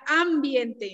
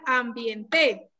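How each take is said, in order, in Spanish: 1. El acento está en la primera sílaba. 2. El acento está en la última sílaba. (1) "¿Esdrújula? No, porque entonces diría ambiente" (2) "Si fuera aguda, diría ambiente"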